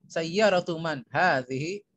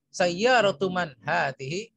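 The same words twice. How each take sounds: The two takes are said the same way.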